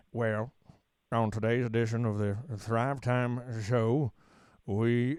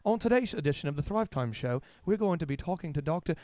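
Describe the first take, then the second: First: Slow, low Oklahoma twang with long pauses; Oklahoma drawl. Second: Lightly mock clever announcer, a touch quieter; a hint of a polished, smart radio intro; smart-sounding host. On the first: Shown as a demonstration. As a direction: drag out every word like an Oklahoma drawl. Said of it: "So you'd wanna say". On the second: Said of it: "if I sounded smart".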